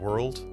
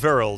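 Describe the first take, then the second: First: The word begins with a W sound. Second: The word begins with a V sound. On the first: This is the usual English pronunciation. "We pronounce it W" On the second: This is the older Germanic pronunciation. "and they V"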